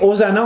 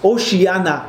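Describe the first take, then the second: First: It is pronounced the usual French way. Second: It is pronounced the way the original language would. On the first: "on dit ça en français" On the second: "on prononcerait si on parlerait probablement dans les langues de ce coin-là"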